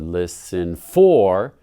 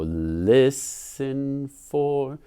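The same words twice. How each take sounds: First: The stress falls on a later syllable. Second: The stress falls on the first syllable. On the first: The speaker calls it wrong. "You wouldn't say listen or listen for" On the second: The speaker calls it right. "It sounds most natural to go listen for with a strong beat right here"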